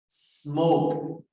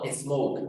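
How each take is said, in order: First: It starts directly with the s sound. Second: It starts with an added e vowel sound. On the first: The speaker calls it right. "es como si nos comiéramos la, S, la E" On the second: The speaker calls it wrong.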